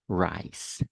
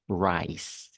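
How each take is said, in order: First: The word ends with a clear S sound. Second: The same.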